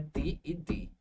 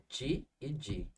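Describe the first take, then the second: First: The T and D are said the Northeastern way. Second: The T and D are said the Southeastern way. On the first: The speaker calls it wrong. "O T e o D não é ti e di" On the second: The speaker calls it right. "é ti e di"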